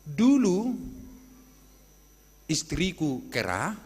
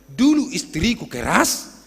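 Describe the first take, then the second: First: The final consonant of the last word is dropped. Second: The final consonant of the last word is pronounced. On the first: It sounds like the wife was a monkey. The speaker calls it wrong. "tidak bisa dari kampung sana mengucapkan huruf hidup, huruf mati" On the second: The wife used to be harsh. The speaker calls it right. "Padahal maksudnya saya bersaksi"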